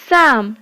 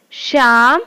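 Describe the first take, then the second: First: साम begun with a hissed s; साम, tongue at the tooth ridge at the start; s sound. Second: शाम begun with a hushing sh; शाम, tongue near the palate at the start; sh sound. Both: Shown as a demonstration. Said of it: "अंतर को समझें".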